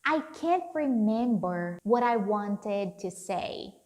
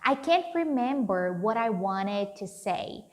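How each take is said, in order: First: Each word is said carefully and separately. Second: The words are run together in relaxed speech.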